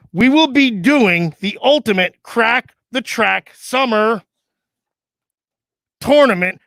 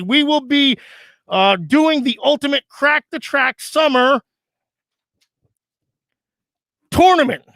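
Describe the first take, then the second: First: Slow formal reading; announcement read. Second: Announcement read. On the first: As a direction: read the fax like a bulletin. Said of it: "hard to read with this gimmick on". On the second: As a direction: read it out like a bulletin. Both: Acted.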